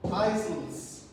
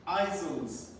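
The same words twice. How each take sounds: The two takes are said the same way.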